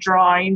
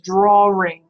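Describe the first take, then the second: First: No R sound comes before the ing. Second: An R sound comes before the ing.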